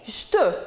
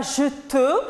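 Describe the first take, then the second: First: "je te" run into one syllable, "j'te"; dropped E. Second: "je te" in two full syllables. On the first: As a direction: cut the first E of "je te" and fuse it. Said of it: "on ne dit pas je te, mais je te". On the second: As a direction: sound the E in both words of "je te". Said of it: "remarquez, on ne dit pas je te". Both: Shown as a demonstration.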